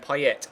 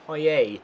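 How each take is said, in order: First: The final T sound is pronounced. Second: The final T sound is silent. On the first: The speaker calls it wrong. "I should pronounce the T in Payet and call him Payet" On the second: The speaker calls it right. "you do not pronounce the T. It's Dimitri Payet"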